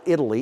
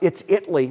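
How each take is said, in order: First: The name is said the usual way. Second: The name is said the local Texas way. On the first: It names the country. The speaker calls it wrong. "not Italy" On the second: It names the town in Texas. The speaker calls it right. "it's Italy, Texas"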